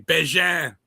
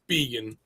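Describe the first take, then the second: First: The surname is pronounced the Canadian way. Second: The surname is pronounced the local, non-Canadian way. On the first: This is how people in Canada say it. "in Canada. If we were in Saint George, Canada, they'd say Bégin" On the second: This is how it is said where he lives. "but in, it's vegan"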